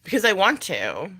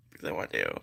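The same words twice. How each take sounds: First: Said in the usual way. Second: Dropped far down, soft and low; playful low-pitched echo. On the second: Pretend. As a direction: repeat it in a deep, quiet undertone. Repeats the answer in very low voice.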